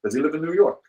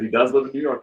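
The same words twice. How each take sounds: First: Higher-pitched imitated Russian accent. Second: Said in the usual way. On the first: Russian friend asks where the bootlegger lives, mock Russian accent. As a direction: mimic a prying Russian friend. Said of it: "that same Russian friend". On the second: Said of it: "I said".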